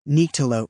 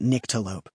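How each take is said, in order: First: The first syllable has a stressed long I sound. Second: The first syllable has no long I sound. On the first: The speaker calls it right. "stressing the long I sound in the first syllable" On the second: The speaker calls it wrong. "He pronounced it Nyctalope"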